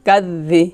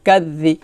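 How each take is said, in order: Both takes have the same delivery.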